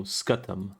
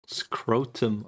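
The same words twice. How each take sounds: First: "scutum" said as skoo-tum, no r; corrected pronunciation. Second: "Scrotum" said as skroh-tum with long o; misread as scrotum. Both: Real, not acted. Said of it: "Oh, scutum".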